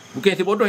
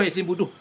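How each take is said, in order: First: "bodoh" said with o vowels, bo-do; wrong name shown. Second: "bodoh" said with u vowels, bu-duh; correct name shown. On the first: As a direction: reject the reading of "bodoh" as bo-do. (sebut "bodoh" dengan bunyi o, bo-doh) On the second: (sebut "bodoh" dengan bunyi u, bu-duh) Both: Shown as a demonstration.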